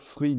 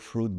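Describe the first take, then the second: First: It is pronounced the French way. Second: It is pronounced the English way. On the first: "on peut aussi les prononcer autrement" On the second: "mots anglais que vous reconnaissez"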